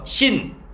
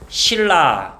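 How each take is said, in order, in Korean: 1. ㄴ 소리가 나고, 그다음 la예요. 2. ㄹ 소리가 나고, 그다음 la예요. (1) "각각 코에서 한번 신, 입에서 한번 라" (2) "그냥 둘 다 주둥이에서 실라"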